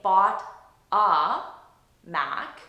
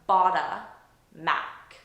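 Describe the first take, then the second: First: The words are separated by pauses. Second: The words are linked without pauses. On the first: The speaker calls it wrong. "with unnatural pauses between them" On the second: The speaker calls it right. "I'm just linking them"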